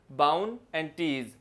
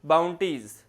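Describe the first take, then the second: First: Bhawan and टीज in two separate beats, a clear break between; split into syllables. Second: Said in the usual way. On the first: Shown as a demonstration. Teacher showing students the two breaks in bounties, Bhawan and टीज split apart slowly. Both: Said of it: "इसमें दो breaks आ रहे हैं".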